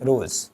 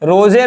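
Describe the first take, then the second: First: The word ends on the z consonant. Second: The word ends with an extra vowel sound. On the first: The speaker calls it right. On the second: The speaker calls it wrong. "रोजे नहीं"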